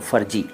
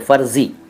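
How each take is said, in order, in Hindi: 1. इसमें f की ध्वनि और j की ध्वनि है। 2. इसमें f की ध्वनि और z की ध्वनि है। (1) "फ़र्जी बोलते हैं ज़्यादातर लोग, वो भी ठीक नहीं है" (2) "फ के नीचे भी नुक्ता लगाइए और ज के नीचे भी नुक्ता लगाइए"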